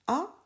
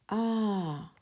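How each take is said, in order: First: The vowel is short. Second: The vowel is held long.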